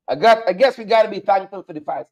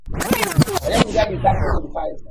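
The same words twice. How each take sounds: First: Said in the usual way. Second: A mock-grateful put-on voice, pitched higher; sarcastic. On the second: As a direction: fake thankfulness, dripping with irony. Sarcastic aside about wildfires.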